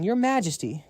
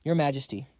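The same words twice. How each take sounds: First: Higher, excited call of Your Majesty; excited shout. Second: Said in the usual way. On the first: A narrator's reading. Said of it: "he jumped up shouting". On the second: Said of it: "fell to his knees".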